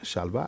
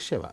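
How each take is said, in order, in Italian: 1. La parola si dice shalva. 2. La parola si dice sheva. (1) "Io ho sempre pronunciato Shalva" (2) "invece Sheva"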